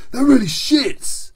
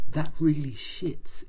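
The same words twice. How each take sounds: First: Loud, high and slowed hero voice; big voice. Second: Slowed, a touch of menace, lightly voiced; intense and scary. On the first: Acted. Action Man reacting to the breakup, loud and hearty. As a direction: blurt it with big sympathy. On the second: Narrator imitating Action Man's mangled phrase, mildly intense. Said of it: "in this really very intense and scary way".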